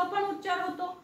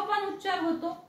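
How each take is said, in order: Both takes have the same delivery.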